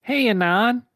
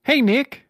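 First: High, louder cartoon Sonic greeting. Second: Higher, louder cartoon Sonic greeting; greeting Nick as Sonic, high and loud. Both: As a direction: chirp it like a grinning cartoon hedgehog. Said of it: "he said, smiling".

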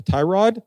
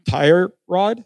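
First: "tie rod" with no R in "tie"; correct part name. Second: "tire rod" with an R closing "tire"; misheard pronunciation. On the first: Clerk clarifies the real part name, "tie rod" without any R. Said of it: "like a tie rod". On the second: New parts clerk repeats a misheard request, "tire rod" with the R sounded. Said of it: "I thought they said tire rod". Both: Shown as a demonstration.

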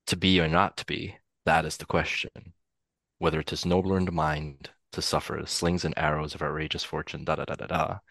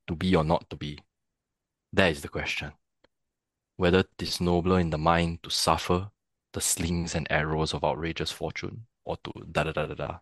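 First: Lower, understated American-accented recital. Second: Singaporean accent. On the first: Actor demonstrating how accent shifts a Hamlet soliloquy, American accent. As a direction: recite it with American R's and vowels. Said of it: "if I do it in an American accent". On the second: Actor demonstrating how accent shifts a Hamlet soliloquy, Singaporean accent. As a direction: recite it with Singaporean vowels, no R's. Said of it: "if I do it in a Singaporean accent". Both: Shown as a demonstration.

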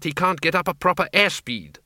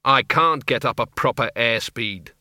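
First: High, lightly voiced Doreen; "proper airspeed" explained brightly and high; Doreen explaining. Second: Arthur echoing. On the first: Doreen explaining Arthur's flying to Windle, high and matter-of-fact. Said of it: "said Doreen". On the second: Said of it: "said Arthur". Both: A narrator's reading.

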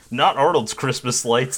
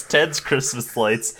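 First: "Not" hit firmly before "Arnold's Christmas lights"; stress on NOT. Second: "Ted's" stressed, slow x0.7, the rest falling. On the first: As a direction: lean on "Not" to set up the contrast. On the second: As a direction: land hard on "Ted's" to finish the contrast. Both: Acted. Contrasting whose lights they are.

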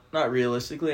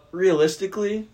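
First: "not" pushed with a small rise, "realistically" settles back to the usual voice; "not realistically" with the weight on "not" and a light rising tune; stress on NOT. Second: "Realistically" jumps high and loud; eager high "Realistically" before the correction; excited blurt. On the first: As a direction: lean on "not" to correct yourself. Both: Real, not acted.

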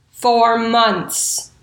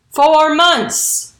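First: Said in the usual way. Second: "Four months" higher and louder, both words hit hard; "Four months" said with loud, drawn emphasis; emphatic stress. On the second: Real, not acted. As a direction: punch "Four months" to stress how long. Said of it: "Not, like, four, the number".

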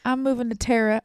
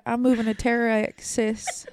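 First: Said in the usual way. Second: Slow, hammed-up fake sob; mock crying. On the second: Teasing her friend about moving to Texas, slow mock sob. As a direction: whimper it like a pretend farewell.

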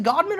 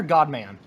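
First: GODMAN with a short, reduced second syllable like "mun"; godman, reduced ending. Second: GODMAN with a full open vowel in the second syllable; godman, full "man". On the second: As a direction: say godman as GOD-MAN, "man" as in the word. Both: Shown as a demonstration. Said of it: "is it godman or godman".

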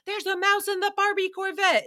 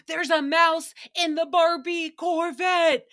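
First: Much higher, thin, strained mock panic; Kristen Wiig style. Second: Higher, louder, slow imitated panic; Nicole's iconic line. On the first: Host redoing Nicole's mouse line like a Kristen Wiig character. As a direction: push it up into a squeaky comic panic. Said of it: "so comparable to Kristen Wiig". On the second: Host imitating Nicole's panic over a mouse in her Barbie car. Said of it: "iconic retelling of the story".

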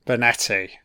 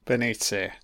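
First: Benetti said correctly, with an e sound; Benetti, the corrected second try; corrected name. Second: Beniti said wrongly, with a short i; Beniti, a first wrong try at Benetti; mispronounced name. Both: Real, not acted.

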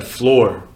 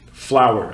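First: "floor" said with one syllable instead of "flower"; the retold wrong reading "floor" for flour; misread as floor. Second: "flower" said as two syllables, like the blossom; flower, said right. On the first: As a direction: read "floor" the way a child misreads it. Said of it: "and I said floor". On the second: Shown as a demonstration. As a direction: say "flower" correctly, rhyming with power. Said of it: "it's spelled F L O U R".

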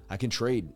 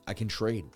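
Both takes have the same delivery.

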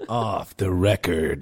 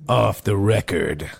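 First: Movie trailer voice. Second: Slow low trailer-voice line; movie trailer voice. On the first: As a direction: lower and even slower trailer growl. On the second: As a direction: say it like a dramatic film narrator. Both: Shown as a demonstration. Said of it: "Oh, do it again".

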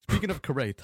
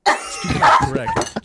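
First: Said in the usual way. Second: Squeaky high, slow sing-song; high silly falsetto. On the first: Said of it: "pause, pause". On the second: Pretend. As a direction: go way up into falsetto, slowly.

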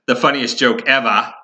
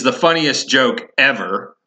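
First: Playful Boston-area Massachusetts R-dropping on "ever"; joking Massachusetts accent. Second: Said in the usual way. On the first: Shown as a demonstration. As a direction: drop the R in "ever", Massachusetts style. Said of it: "the Massachusetts accent". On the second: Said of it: "ability to pronounce the letter R".

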